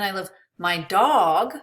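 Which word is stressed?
dog. The word dog carries the emphasis. Another pet may not be loved. "Maybe I don't love my cat"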